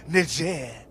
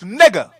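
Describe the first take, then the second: First: The word is said with a French-sounding pronunciation. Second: The word is said plainly, without foreign styling. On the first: The speaker calls it wrong. "try to make it all sound all French and romantic" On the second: The speaker calls it right. "That's how you pronounce it properly"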